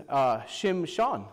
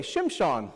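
First: Shimshon said slowly as SHIM-shon; Hebrew name. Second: Shimshon spoken as SHIM-shon, falling; Hebrew name. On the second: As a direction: Shimshon with sh sounds and a stressed first syllable. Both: Shown as a demonstration. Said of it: "Go ahead and say".

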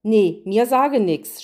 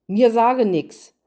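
First: Slow, louder refusal through a mouthful; munching while talking. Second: Stubborn refusal, slow and louder in dialect; defiant. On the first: Gretel refuses the queen with her mouth full, chewing. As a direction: say it chewing chocolate. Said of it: "schmatzte Gretel". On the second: Hänsel refuses to answer the queen, defiant and slow. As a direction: dig in your heels and refuse. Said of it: "Hänsel wehrte trotzig ab". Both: Acted.

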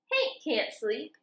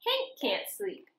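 First: Said in the usual way. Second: Whispered, higher refrain. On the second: A narrator's reading. Reading to kids, refrain whispered like a secret. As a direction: breathe the line unvoiced.

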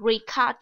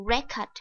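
First: RECORD as a verb, ri-KORD; stress on second syllable. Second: RECORD as a noun, REK-erd; stress on first syllable. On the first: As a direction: punch the second syllable of "record", with a full "kor". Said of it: "động từ mình nhấn âm thứ hai". (nhấn âm thứ hai của "record": ri-CÓRD) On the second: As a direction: punch the first syllable of "record", reduce the second. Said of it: "danh từ thì mình nhấn âm thứ nhất". (nhấn âm thứ nhất của "record": RÉ-cord) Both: Shown as a demonstration.

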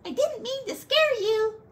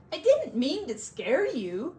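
First: Much higher, squeaky little frog; tiny frog voice. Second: Said in the usual way. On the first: Acted. The tiny frog reassures the scared bear, high squeaky voice.

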